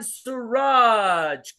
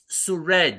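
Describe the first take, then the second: First: The name is said to rhyme with garage. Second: The name is said not rhyming with garage. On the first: The speaker calls it wrong. "they made a rhyme out of my name" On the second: The speaker calls it right. "it's Suraj"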